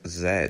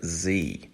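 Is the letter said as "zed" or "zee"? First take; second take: zed; zee. First: The letter is said as zed, non-American style. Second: The letter is said as zee, American style.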